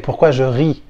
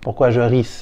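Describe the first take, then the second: First: The final S of ris is silent. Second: The final S of ris is pronounced. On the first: The speaker calls it right. "you don't pronounce the S at the end. So you would say" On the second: The speaker calls it wrong.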